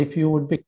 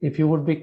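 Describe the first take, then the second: The two takes are said the same way.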